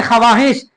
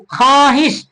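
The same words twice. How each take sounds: First: ख्वाहिश said as kha-vaa-hish; wrongly sounded vav. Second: ख्वाहिश said as khaahish, no v sound; silent vav. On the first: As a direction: sound the v in ख्वाहिश as its own syllable. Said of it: "नहीं बोलते हैं". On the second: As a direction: drop the v in ख्वाहिश, long aa after kh. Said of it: "सही लफ्ज क्या है?". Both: Shown as a demonstration.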